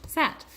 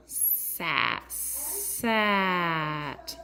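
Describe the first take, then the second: First: SAT quick and higher, in one go; said fast. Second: SAT drawn out, sound by sound; slow sounding-out. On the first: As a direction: pop SAT out as one short word. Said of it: "then they say it fast". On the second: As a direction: hold the S and A in SAT, short T. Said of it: "they do it slow". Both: Shown as a demonstration.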